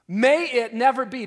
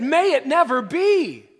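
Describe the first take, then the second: First: Higher, louder emphatic refusal; firm emphatic no; preacher repeating the crowd's cry, firmly and loudly; strong denial. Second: Much higher and much louder, slow cry; horrified denial. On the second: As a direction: cry it out in horror, slowly. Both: Retold or imitated. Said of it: "strongest negative statement you can make".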